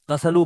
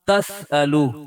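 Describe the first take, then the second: First: The word flows smoothly with no glottal stop. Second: A glottal stop splits the word in the middle. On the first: This is how it is commonly read. "तसलु पढ़ते हैं" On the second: This is the word's original full form. "असल में था तस अलू"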